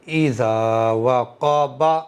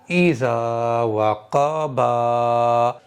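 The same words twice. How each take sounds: First: The final 'ba' vowel is kept short. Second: The final 'ba' vowel is drawn out long. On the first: The speaker calls it right. "इस वाले बा को मैंने खींचा नहीं है" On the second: The speaker calls it wrong. "खींच करके कैसे पढ़ा जाएगा बा"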